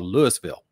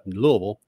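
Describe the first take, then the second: First: It is said the way outsiders say it. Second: It is said the way locals say it. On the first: The speaker is from far outside the area. "if you're way out of the area, it's called Louisville" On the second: The speaker is native to the area. "which is what most people native to the area call it"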